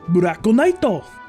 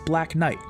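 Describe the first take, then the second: First: It is said with Japanese pronunciation and added vowels. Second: It is said with plain English pronunciation. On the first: The speaker calls it right. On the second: The speaker calls it wrong.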